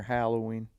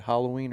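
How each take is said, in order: First: Halloween said with a short "a" as in "hat"; second pronunciation of Halloween. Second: Halloween said with an open "ah", like "HOLL-oween"; first pronunciation of Halloween. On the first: Host offering the other way to say it, Halloween with a short "a". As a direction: say Halloween as "HAL-oween", like the name Hal. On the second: Host asking a friend how to say it, Halloween with an "ah". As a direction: say Halloween as "HAH-loween". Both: Shown as a demonstration. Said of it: "How do you say it?".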